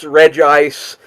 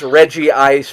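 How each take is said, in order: First: The name is said with two syllables. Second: The name is said with three syllables. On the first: The speaker calls it right. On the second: The speaker calls it wrong.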